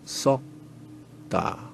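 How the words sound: The vowel is said with flat, unrounded lips. This is the South Korean pronunciation. "우리 남쪽에 썩다"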